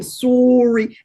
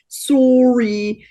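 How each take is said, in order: First: Canadian "sorry". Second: Put-on Canadian accent, "sorry" drawn out and louder. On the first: Retold or imitated. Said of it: "like the Canadian". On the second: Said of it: "the hard accent of".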